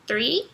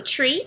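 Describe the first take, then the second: First: "three" opening on TH, not T; TH-R, tongue between teeth. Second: "tree" with a plain T before R; "tree" opening on T, not TH; T-R, tongue inside. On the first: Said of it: "a língua fica entre os dentes". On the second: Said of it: "a sua língua vai ficar dentro da boca". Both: Shown as a demonstration.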